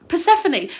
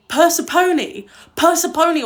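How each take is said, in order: First: Persephone said per-SEF-oh-nee; correct pronunciation. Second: Persephone said PER-seh-phone, like the word phone; wrong old pronunciation. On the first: Correcting herself for her stream, plain right pronunciation. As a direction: stress the second syllable of Persephone, ending in nee. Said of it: "The way I used to say Persephone". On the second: Showing viewers how she used to mangle Persephone, loud mock mispronunciation. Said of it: "The way I used to say Persephone was like". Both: Shown as a demonstration.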